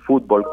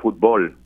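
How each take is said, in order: First: The stress is on the first syllable. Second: The stress is on the second syllable.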